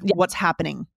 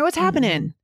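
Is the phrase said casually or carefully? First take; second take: carefully; casually. First: It is said in a careful, formal way. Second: It is said in a relaxed, casual way. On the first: The speaker is on a more formal footing. "Instead of" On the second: The speaker is on a casual footing. "you're probably on a casual track already. So you're more likely to say"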